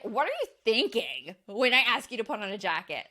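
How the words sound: It sounds negative and accusing.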